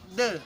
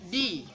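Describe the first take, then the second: First: The word ends in a short 'uh' vowel. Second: The word ends in a long 'ee' vowel. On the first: The speaker calls it wrong. "not the" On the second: The speaker calls it right. "because uh the word uh, word the meet with the vowel in this agreement, so uh, it's changed to pronounce"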